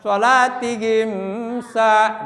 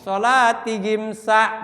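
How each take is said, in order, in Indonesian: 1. Bunyi m ditahan panjang. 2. Bunyi m pendek dan jelas.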